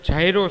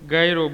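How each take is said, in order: First: The word begins with a j sound. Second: The word begins with a g sound. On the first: This is the original form of the word. "ખરેખર જાયરો શબ્દ છે" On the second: This is how it is commonly said in Gujarati. "ગુજરાતીમાં એને ગાયરો બોલે છે"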